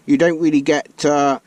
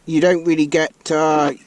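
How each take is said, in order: Both takes have the same delivery.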